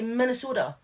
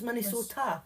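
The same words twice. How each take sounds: First: The t is softened, as in American speech. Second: The t is pronounced clearly and fully. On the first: This is how Americans say it. "American people say Minnesota" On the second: This follows the spelling with its t. "but it's got a T. So it's"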